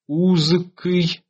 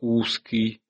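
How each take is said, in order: First: The middle consonant is a voiced z sound. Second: The middle consonant is a voiceless s sound. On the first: This is the older form before the change. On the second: This is the later form after the change.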